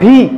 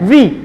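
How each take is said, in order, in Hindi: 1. इसकी शुरुआत एक साँस वाली b की आवाज़ से होती है। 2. इसकी शुरुआत दाँत को होंठ पर रखकर बोली जाने वाली v की आवाज़ से होती है। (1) "ये भी ऐसे नहीं होता" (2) "ऊपर वाला दांत लिप्स पे पड़ेगा"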